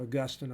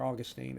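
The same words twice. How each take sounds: First: "Augustine" with stress on GUS; "Augustine" as uh-GUS-tin, short last syllable; uh-GUS-tin pronunciation. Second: Put-on "Augustine" with a long -teen ending; AW-gus-teen pronunciation. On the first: Teacher giving both names to class, "Augustine" as uh-GUS-tin. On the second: Teacher giving the alternative to class, "Augustine" as AW-gus-teen. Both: Shown as a demonstration. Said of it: "I've heard it both ways".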